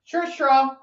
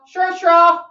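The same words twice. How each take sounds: First: Said in the usual way. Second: "Sure, straw" higher and louder, called out; mock announcing call. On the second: Reading the drawn drink name aloud to friends, mock announcing.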